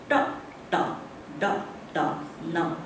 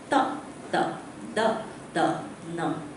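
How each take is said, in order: First: The tongue curls back for each consonant. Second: The tongue touches the teeth for each consonant. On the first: "Your tongues purposely curl" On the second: "your tongue should touch the teeth"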